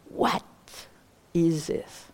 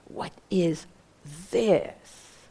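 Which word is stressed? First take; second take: what; this. First: The stress is on "what". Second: The stress is on "this".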